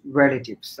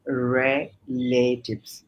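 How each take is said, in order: First: রিলেটিভস at normal speed with the final s; quick check of রিলেটিভস; model pronunciation. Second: রিলেটিভস drawn out slowly, final s clearly voiced; teacher modelling রিলেটিভস slowly; slow model pronunciation. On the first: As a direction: say রিলেটিভস briskly, ending on s. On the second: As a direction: stretch out রিলেটিভস with a crisp s ending. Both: Shown as a demonstration. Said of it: "উচ্চারণ হচ্ছে রিলেটিভস".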